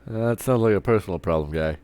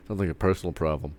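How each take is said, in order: First: Relished with a light teasing lift on "sounds"; savoring the line. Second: Tossed off fast and dry; quick dismissive line. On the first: Shown as a demonstration. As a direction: repeat "That sounds like a personal problem" with playful relish. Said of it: "Love that line". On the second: Retold or imitated. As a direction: rattle off "sounds like a personal problem" like a brush-off. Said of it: "Oh, I love that line".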